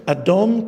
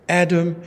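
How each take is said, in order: First: Adam said as Hebrew "adom", with a rising end; Hebrew pronunciation. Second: Said in the usual way. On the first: Shown as a demonstration. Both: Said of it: "the Hebrew word for red".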